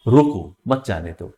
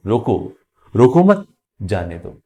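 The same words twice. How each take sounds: First: "रोको" set apart as its own command, "मत जाने दो" following; pause after रोको. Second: Group "रोको मत" together, then drop on "जाने दो"; pause after मत. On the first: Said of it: "modulation हो, जैसे". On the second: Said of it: "और इसी सेंटेंस को". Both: Shown as a demonstration.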